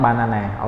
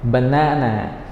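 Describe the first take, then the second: First: Banana with every syllable given a full vowel, ba-na-na; mispronounced banana as a bad example; wrong banana. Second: Banana as buh-NAH-nuh; correct banana. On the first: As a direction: say banana evenly, without reducing the first syllable. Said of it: "not banana". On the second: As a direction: say banana with a short first syllable and long stressed middle. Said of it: "not banana, okay?". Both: Shown as a demonstration.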